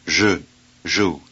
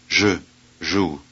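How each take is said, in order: The two takes are said the same way.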